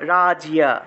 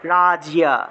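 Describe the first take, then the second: No difference in how they are said.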